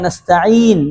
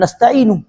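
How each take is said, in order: First: The word ends on a consonant. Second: The word ends with an added vowel. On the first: The speaker calls it right. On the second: The speaker calls it wrong.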